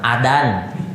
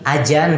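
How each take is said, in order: First: The middle consonant is a plain d sound. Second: The middle consonant is a j sound. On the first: This is how Sundanese speakers say it. "pakai dal orang Sunda mah adan" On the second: This is how Javanese speakers say it. "Kalau orang Jawa lebih jauh lagi, ajan pakai jim"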